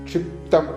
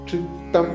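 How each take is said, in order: Both takes have the same delivery.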